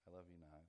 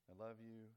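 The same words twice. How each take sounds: First: Mock loves-me-not, low and soft; petal-plucking rejection. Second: Mock deliberation landing on a yes; petal-plucking verdict. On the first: God pulling flower petals over a person, mock rejecting. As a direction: pretend deliberation sinking to a no. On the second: God pulling flower petals over a person, mildly favourable. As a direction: pretend loves-me chant, held level. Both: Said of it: "for each person, God has a flower".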